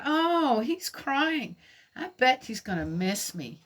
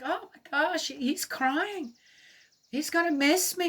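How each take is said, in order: First: Lightly voiced, starry-eyed little girl, higher at the start; a hint of a smitten schoolgirl who misreads the sniffling; gently mock-naive, the pitch lifting on the first words; naive younger self. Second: Mock-smitten kid sure the boy will miss her; wide-eyed, dreamy and noticeably higher throughout; naive younger self. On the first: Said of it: "And I'm going". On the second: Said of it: "somehow that's like".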